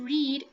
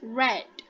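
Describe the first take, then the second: First: It has the present-tense pronunciation of the word. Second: It has the past-tense pronunciation of the word. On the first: It is the present tense. "The past tense of read" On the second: It is the past tense. "is read. It's spelled the same... but you pronounce it as read"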